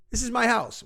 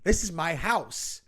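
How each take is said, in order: First: "my" punched higher and louder; stress on my. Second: "This" stressed, slow, falling at the end. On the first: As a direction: hit "my" hard in "This is my house". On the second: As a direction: lean on "This" in "This is my house", slowly. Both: Retold or imitated. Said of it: "That's what these people sound like to me".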